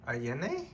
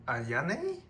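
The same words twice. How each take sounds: First: "Ayane" as ah-YEH-neh, questioning rise; alternative pronunciation. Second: "Ayane" as ah-YAH-neh, questioning rise; unsure pronunciation. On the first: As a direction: try "Ayane" with an EH in the middle, unsure. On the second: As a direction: try "Ayane" with an open AH in the middle, unsure. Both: Real, not acted. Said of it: "I don't know how to pronounce her name".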